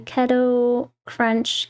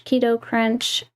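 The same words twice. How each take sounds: First: "Keto" said KEH-toh, drawn out slowly; keto with short E. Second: "Keto" corrected to KEE-toh; keto with long E. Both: Real, not acted. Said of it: "I never know if I'm saying it right".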